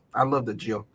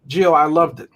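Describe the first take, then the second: First: Quiet teasing. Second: Said in the usual way. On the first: Real, not acted.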